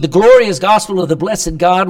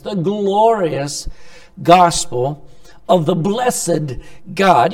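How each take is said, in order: First: "The glorious gospel of the blessed God" in one loud, flowing phrase with no pauses; reading it straight through. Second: "The glorious gospel of the blessed God" said slowly, with "glorious" stretched and "gospel" punched louder; savoring each word. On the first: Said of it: "He said". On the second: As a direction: linger on "glorious", then land hard on "gospel". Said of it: "I like how Paul talks about the gospel". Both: Shown as a demonstration.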